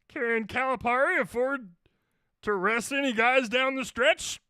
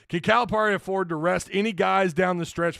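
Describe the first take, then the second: First: It is read in a put-on character voice. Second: It is read in a plain natural voice. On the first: "I'm almost starting to get into Yoda territory" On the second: "let me read this in a regular voice"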